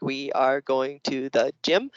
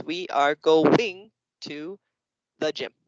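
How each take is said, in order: First: Slow, separated words, one per finger; word-by-word counting. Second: Very slow, GOING broken into two beats; syllable-split counting. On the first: Teacher showing how kids count words on their hands, slow and separated. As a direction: count each word out slowly, rising on gym. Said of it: "the kids counted on their hands, like". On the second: Teacher imitating kids miscounting the words, slow and broken up. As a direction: drag out "going" as two words, pause before "the gym". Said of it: "other kids will go like this". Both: Shown as a demonstration.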